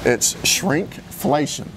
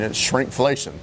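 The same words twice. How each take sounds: First: It is said slowly. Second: It is said at normal speed.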